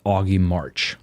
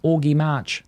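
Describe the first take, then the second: First: The name is said in an American accent. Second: The name is said in the speaker's own accent.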